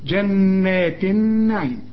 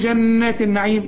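First: The n sound is held with a nasal hum. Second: The n sound is plain, without held nasal. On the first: The speaker calls it right. "النون لازم تغن" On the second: The speaker calls it wrong. "مش تقول جنات النعيم"

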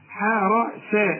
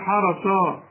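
First: The s sound is plain and light. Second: The s sound is heavy and emphatic. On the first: The speaker calls it right. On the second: The speaker calls it wrong.

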